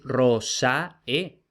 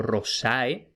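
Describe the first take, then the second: First: "rosae" slowly broken into three, ro, SA, e; split into syllables. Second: "rosae" with the stress on "sa"; imitated objector's stress. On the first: Acted. Teacher voicing objectors proving their point, rosae split as ro-sa-e. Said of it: "no es la última". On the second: Teacher voicing people who object about rosae, stress on SA. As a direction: say "rosae" as the mistaken objector does, ro-SA-e. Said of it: "es la penúltima".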